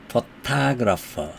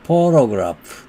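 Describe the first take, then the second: First: Photographer slow, middle syllable to stressed; slow photographer stressing the middle. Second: Photograph with the first syllable pho stressed; photograph, lean on the first syllable pho. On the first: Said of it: "중간 음절에 액센트가 있고". (photographer 중간 음절 강세, 천천히) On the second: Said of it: "앞 음절에 액센트가 있다". (photograph 첫 음절 강세) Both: Shown as a demonstration.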